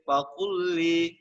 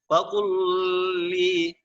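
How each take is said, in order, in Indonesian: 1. Bunyi L hanya diucapkan sekali, menyatu. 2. Bunyi L diucapkan dua kali, terpisah. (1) "di sini lamnya cuma satu kali ya" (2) "Jangan kita baca faqul faqul li"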